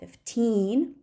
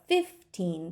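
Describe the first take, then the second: First: The stress is on the second syllable. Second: The stress is on the first syllable. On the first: "we stress the word fifteen on the second syllable" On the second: "but fifteen dollars"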